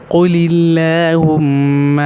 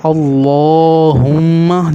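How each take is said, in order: First: قل اللہم drawn out with a light "lilla"; thin l. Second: اللہم drawn out with a thick, dark "llo"; heavy l. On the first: Teacher showing zer before Allah, light l in قل اللہم. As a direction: keep the l of اللہم clear and unrounded. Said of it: "تو اللہ بھی باریک ہو جائے گا". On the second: Teacher showing the thick rule, heavy l in اللہم. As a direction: make the l of اللہم full and rounded, held long. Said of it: "دیکھو موٹا ہو رہا ہے". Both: Shown as a demonstration.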